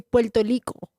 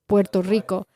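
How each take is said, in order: First: The R sounds come out like an L. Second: The R sounds are strongly rolled. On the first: This is how a Puerto Rican speaker says it. "like an L" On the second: This is how a Mexican speaker says it. "A Mexican would roll the R's"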